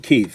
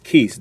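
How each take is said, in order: First: The name ends with a th sound. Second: The name ends with an s sound. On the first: "They don't say Keith" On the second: "The the T H is the S"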